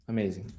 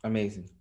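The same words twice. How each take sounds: The two takes are said the same way.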